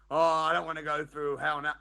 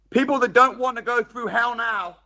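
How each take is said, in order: First: "Oh, I don't want to go through hell now" said a little softer as a mock whine; mock the excuse-maker lightly; mock whiny excuse. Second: Said in the usual way. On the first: Mimicking people who dodge hardship, lightly whiny.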